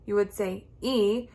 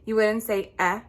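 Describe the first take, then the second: First: The vowel sounds like the letter's name. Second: The vowel is a short, clipped sound. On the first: The speaker calls it right. "you would say" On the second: The speaker calls it wrong. "you wouldn't say"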